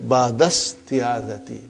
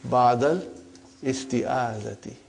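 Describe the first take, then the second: First: The opening vowel of isti'adati is dropped. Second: The opening vowel of isti'adati is pronounced. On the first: The speaker calls it right. "so it will say" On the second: The speaker calls it wrong. "for simplicity ... we can say"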